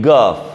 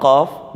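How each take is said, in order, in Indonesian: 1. Diawali dengan bunyi 'g' yang keras. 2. Diawali dengan bunyi 'q' yang dalam dari tenggorokan. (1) "jadi gaf" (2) "kalau qaf"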